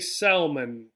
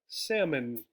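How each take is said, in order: First: The L sound is pronounced in the word. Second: The L sound is silent in the word. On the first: The speaker calls it wrong. "We do not say salmon" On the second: The speaker calls it right. "in English we do not say this L"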